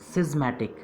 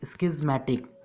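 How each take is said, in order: First: The word begins with a plain 's' sound. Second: The word begins with an 'sk' sound. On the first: "मतलब का गायब कर दिया" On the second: "sound तो का आना चाहिए था"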